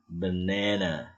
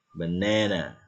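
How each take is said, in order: First: Banana said slowly with ae in the middle; slow English banana. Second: Said in the usual way. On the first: Shown as a demonstration. Teacher models slow banana with ae. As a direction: stretch banana as buh-NAE-nuh.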